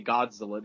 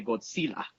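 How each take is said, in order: First: Said in the usual way. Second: Godzilla as "God-seela", S for Z; family's Spanish pronunciation. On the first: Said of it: "they wouldn't even say Godzilla". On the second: Retold or imitated. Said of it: "They would say Godzilla".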